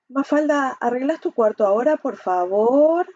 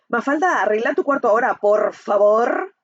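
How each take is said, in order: First: It sounds fearful and hesitant, slightly sarcastic. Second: It sounds harsh and aggressive.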